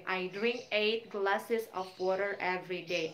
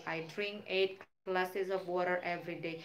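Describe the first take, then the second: First: Slow, careful model sentence for students. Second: Said in the usual way. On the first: Shown as a demonstration. Teacher modelling a daily practice sentence, slow. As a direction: spell it out slowly like a teacher. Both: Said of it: "misalnya Miss ambil yang rutin".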